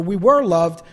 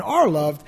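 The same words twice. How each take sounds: First: WERE leaned on, marking the past; stress on WERE. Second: ARE leaned on, marking the present; stress on ARE. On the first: Preacher correcting himself to the past tense, stress on WERE. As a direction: put the weight on "were". Contrasts past with present love. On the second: Preacher adding that the love continues, stress on ARE. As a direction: put the weight on "are". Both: Real, not acted.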